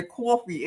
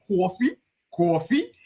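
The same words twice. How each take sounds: First: Said in the usual way. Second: "coffee" echoed with a questioning lift; mocking echo. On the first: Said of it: "how I said coffee". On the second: Engineer teasing host over her accent, mocking questioning echo of "coffee". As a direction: parrot "coffee" back twice as a teasing question. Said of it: "he always used to mark me".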